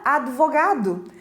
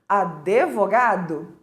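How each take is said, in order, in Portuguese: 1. O d é falado sem vogal depois. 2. Depois do som do d vem um e extra. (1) "Tem um D mudo" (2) "pronunciando essa palavra de forma errada"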